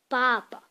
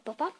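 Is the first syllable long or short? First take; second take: long; short. First: The first syllable is long, the last quick. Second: Both syllables are short and even. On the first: "le premier syllabe, on le prononce euh, plus longtemps" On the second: "En français, on dit papa, juste P A P A"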